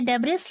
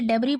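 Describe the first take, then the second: First: The word ends with an audible s sound. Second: The word ends without any s sound. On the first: The speaker calls it wrong. "ये डेब्रिस लिखा हुआ है" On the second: The speaker calls it right. "इसे डेब्री पढ़ते हैं, एस को pronounce नहीं करते हैं"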